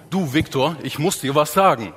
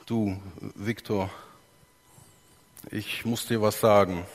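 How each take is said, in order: First: Threatening. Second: Timid and quiet. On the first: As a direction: say it like you're angry with him. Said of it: "eine Bedrohung für ihn darstellen". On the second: Pastor voicing a guilty man to Viktor, quiet and halting. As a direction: murmur it like someone who did wrong. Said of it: "meine Stimme ist leise". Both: Shown as a demonstration.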